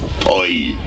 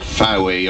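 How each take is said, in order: First: The name is said like 'Foy'. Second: The name is said like 'Fowie'. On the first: The speaker calls it right. "It's Foy" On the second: The speaker calls it wrong. "it's not Fowie"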